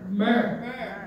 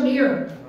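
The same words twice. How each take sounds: First: The word is said like 'mur'. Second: The word is not said like 'mur'. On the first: The speaker calls it right. "Bakit hindi nila ginawang M U R" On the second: The speaker calls it wrong. "hindi po siya myrrh"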